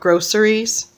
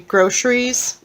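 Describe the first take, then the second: First: It is said in a general American way. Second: It is said in a Washington-state way. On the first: This is how the rest of the country says it. "instead of groceries" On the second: This is how locals in Washington say it. "we say groceries"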